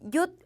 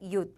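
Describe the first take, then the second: First: The syllable is said on a high tone. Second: The syllable is said on a low tone. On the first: The speaker calls it wrong. "윷 삼성으로 해주셔야 되겠지만" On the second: The speaker calls it right. "윷 이렇게 일성으로 해주시면"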